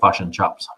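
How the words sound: It is said with New Zealand vowels. "they say fush and chops"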